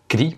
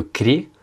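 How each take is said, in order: First: Kri with a tight I vowel; unstressed YE as I. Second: Kri sounded as kre, with the written E vowel. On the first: Teacher giving the spoken form, kri with an I. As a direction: close the vowel of kri to a plain I. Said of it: "se prononce kri parce qu'il n'est pas accentué". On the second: Teacher naming the written syllable, kri said as kre. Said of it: "le premier Y". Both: Shown as a demonstration.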